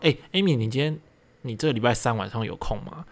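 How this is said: It is said haltingly with breaks.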